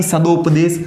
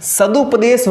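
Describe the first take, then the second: First: "सदोपदेश" with o after द; wrong o pronunciation. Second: "सदुपदेश" with a short u after द; stretched-out "सदुपदेश", clear u not o; short u pronunciation. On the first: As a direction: say "सदोपदेश" slowly, do in the middle. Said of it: "इसको आप गलत कर दो". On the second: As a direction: say "सदुपदेश" slowly, du in the middle. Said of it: "न कि सदोपदेश". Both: Shown as a demonstration.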